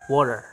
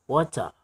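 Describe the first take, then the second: First: An American accent, T sounding like D. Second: A British accent, clear T and faint R. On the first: "kalau bahasa Inggris Amerika mereka mengucapkannya dengan kata water" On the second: "British English itu untuk mengucapkan kata air mereka bilang water"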